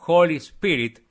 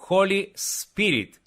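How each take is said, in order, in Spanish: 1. El sonido s es corto y sencillo. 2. El sonido s es largo y doble. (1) "En lugar de decir Holy Spirit" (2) "la letra S la pronuncian como si fuera una doble S"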